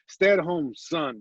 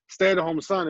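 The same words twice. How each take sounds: First: There is a pause before "son". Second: It is said with no pause before "son".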